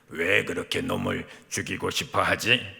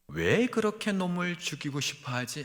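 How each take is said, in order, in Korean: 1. 꾸민 목소리는 더 강하고 힘이 더 들어가요. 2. 꾸민 목소리는 더 부드럽고 힘이 덜해요. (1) "조금 더 좀 강해야 되는데" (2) "이 목소리가 아닌데"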